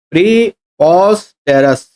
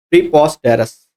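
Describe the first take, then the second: First: प्रीपोस्टेरस slowly in separate chunks, pre-pos-terous; broken into syllables. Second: Said in the usual way. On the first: Shown as a demonstration. Teacher breaking up प्रीपोस्टेरस to check its spelling, syllable by syllable. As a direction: say प्रीपोस्टेरस piece by piece, pausing between parts. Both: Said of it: "दो तीन जगह से break कर सकते हो".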